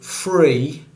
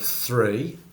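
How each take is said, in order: First: The first sound is said as an f. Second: The first sound is said as th. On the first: "that's an example of T H fronting" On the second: "instead of"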